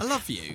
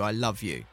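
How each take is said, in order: First: It is said lightly and offhandedly. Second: It is said seriously and earnestly. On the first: It is a throwaway remark, not a real declaration. "in a way which wouldn't be the sincere way" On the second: It is a heartfelt declaration of love. "It's not necessarily like... Let's sit down. I need to tell you"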